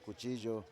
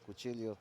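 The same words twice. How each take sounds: First: The double L sounds like a J. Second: The double L sounds like an English L. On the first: This is the standard Spanish pronunciation. "the double L in Spanish is actually like a J" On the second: This is the local pronunciation shaped by English. "you pronounce it like like in English"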